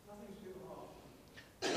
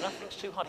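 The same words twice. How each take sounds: First: Hushed and slow, letting it sink in; almost breathe "Nothing's too hard" at half speed; soft, slow take. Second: Said in the usual way. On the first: Acted. Pastor to congregation, hushed and slow. Pastor restates a truth softly.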